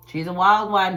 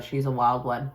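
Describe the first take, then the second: First: "She's a wild one" again, louder with a punch on "wild"; emphatic repeat. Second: Said in the usual way. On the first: Shown as a demonstration. About her sister, hitting "wild" louder the second time. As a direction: lean hard on "wild" and let it fall.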